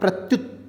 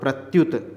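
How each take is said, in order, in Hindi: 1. अंतिम t बिना स्वर के समाप्त होता है। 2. अंतिम t के बाद एक स्वर आता है। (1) "तब पूरा नहीं बोल रहा" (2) "तब पूरा बोलो"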